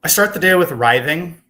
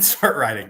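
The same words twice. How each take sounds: First: Writhing said with a voiced th, loud and high. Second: Writing said with a plain t sound. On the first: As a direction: say writhing, rhyming with "scything". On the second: Shown as a demonstration. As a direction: say writing, the usual word for composing. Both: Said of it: "trying to say writing".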